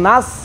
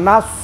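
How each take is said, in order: First: The s sound is plain and light. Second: The s sound is heavy with rounded lips. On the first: The speaker calls it wrong. "সিন হয়ে যাবে" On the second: The speaker calls it right. "সোয়াদ, মুখটা গুল করে দেন"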